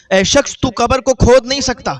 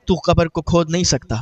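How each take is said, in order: First: Repeated warning, higher and louder, hitting کھود; louder stern warning. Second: Said in the usual way. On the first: Retold or imitated. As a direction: raise the voice to forbid digging. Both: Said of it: "تو آواز آئی".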